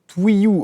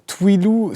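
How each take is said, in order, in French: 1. La consonne du milieu est un son Y. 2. La consonne du milieu est un son L. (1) "Twilou se prononce Twiyou" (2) "Twilou se prononce Twiyou"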